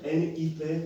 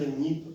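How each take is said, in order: First: Each letter is said separately, one by one. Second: The letters are run together as one word. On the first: The speaker calls it wrong. "on ne va pas dire" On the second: The speaker calls it right. "mais on va dire"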